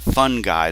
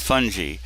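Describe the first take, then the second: First: The word sounds like the phrase fun guy. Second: The word does not sound like fun guy. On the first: The speaker calls it wrong. "is not fungi. That's somebody you invite to a party" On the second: The speaker calls it right. "It's fungi"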